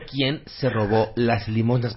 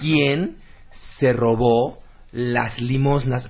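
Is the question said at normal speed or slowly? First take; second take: normal speed; slowly. First: It is said at normal speed. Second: It is said slowly and clearly.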